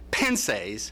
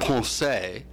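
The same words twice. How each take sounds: First: The word is said with an Indiana pronunciation. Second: The word is said with a French pronunciation. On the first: "this is the Hoosier pronunciation"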